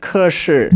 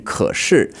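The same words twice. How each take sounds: First: 可是 said with his wrong tone; imitating wrong tone. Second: 可是 said with the correct tones. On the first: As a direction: copy his off tone on 可是. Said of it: "So his 可是, the tone wasn't quite right". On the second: Shown as a demonstration. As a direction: model the right tones on 可是. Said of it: "It should have been 可是".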